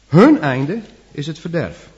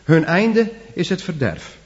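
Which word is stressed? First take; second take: Hun; verderf. First: The stress falls on hun, not on verderf. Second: The stress falls on verderf, not on hun. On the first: Their fate is set against ours. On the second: The statement is about their fate.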